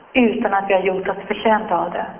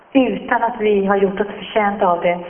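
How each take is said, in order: Both takes have the same delivery.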